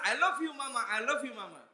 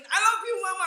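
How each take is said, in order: First: Said in the usual way. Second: "I love you" called out high and loud; the boy turns it up so mama hears; louder. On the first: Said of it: "Kalau suaranya kurang kencang". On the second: Retold or imitated. Boy shouting to mama to outdo his brother, high and loud. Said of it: "mereka kencengin".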